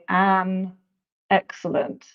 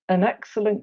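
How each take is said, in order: First: The article has a full, strong vowel. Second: The article has a reduced schwa vowel. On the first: The speaker calls it wrong. "We don't usually say an excellent" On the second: The speaker calls it right. "That schwa comes back again and we get un"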